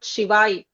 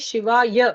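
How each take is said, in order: First: The word ends in a short 'ai' sound. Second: The word ends in a full 'ya' syllable. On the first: The speaker calls it wrong. "not Shivai. In Hindi, they say Shivai. That's a corruption" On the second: The speaker calls it right. "say Shivaya"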